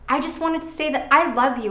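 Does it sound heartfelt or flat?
heartfelt. It is said with heartfelt, sincere feeling.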